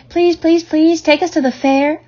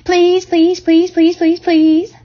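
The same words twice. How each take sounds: First: High pleading gosling voice, every please pushed up; begging gosling. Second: Higher and louder chorus of please; teasing goslings. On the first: One gosling begging its mother for the fair, high eager pleading. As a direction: beg like a small bird desperate to go. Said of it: "begged a gosling". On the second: Seven goslings pestering their mother to go, loud high teasing. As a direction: pester nonstop, each please climbing. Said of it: "all seven began teasing to go". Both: A narrator's reading.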